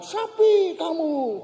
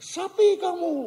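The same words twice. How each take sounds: First: High, slow echo of an insult; drawn-out high call bouncing back; echo answering back. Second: High-pitched mock insult, called out; play-acted cross kid's high call; annoyed child. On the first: Retold or imitated. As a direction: imitate a ravine echo, vowels stretched. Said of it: "sana jawab". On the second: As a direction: imitate a fed-up kid calling names across a ravine. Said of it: "si anak makin jengkel".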